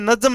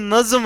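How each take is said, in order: First: The middle consonant is the plain Hindi j sound. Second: The middle consonant is the Persian-style z sound. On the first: The speaker calls it wrong. "बोलने में नज्म नहीं है" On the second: The speaker calls it right. "नज्म है ये"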